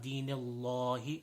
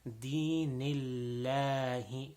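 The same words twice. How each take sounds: First: The L sound is heavy and full-mouthed. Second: The L sound is thin and flat. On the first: The speaker calls it wrong. "That's a common mistake" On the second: The speaker calls it right. "the lam becomes um, opposite of full mouth, it becomes flat"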